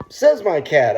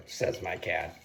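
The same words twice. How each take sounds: First: Lifted, louder catchphrase; quoting one's own tagline emphatically; catchphrase demo. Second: Low, soft deadpan tagline; catchphrase demo. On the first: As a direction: punch out the catchphrase, pitched up. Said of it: "is my original phrase when I go". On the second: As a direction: drop the catchphrase low and quiet. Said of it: "when I go, "says my cat". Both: Shown as a demonstration.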